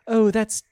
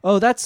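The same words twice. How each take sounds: First: It is said in a put-on British accent. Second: It is said in the speaker's usual accent. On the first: "Let me do the British accent" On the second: "pardon me"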